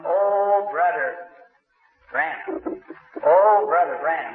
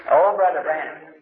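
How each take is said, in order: First: Calling out a name from afar, a bit louder; mock holler of the name; retold hollering. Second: Repeating the called-out name, a bit louder; the remembered holler of his name; echoed hollering. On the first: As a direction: someone hollering his name for him. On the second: Retold or imitated. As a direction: recall the holler as it rang in his head. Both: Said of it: "I heard somebody hollering".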